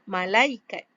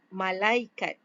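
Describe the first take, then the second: First: The word ends with a clear t sound. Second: The same.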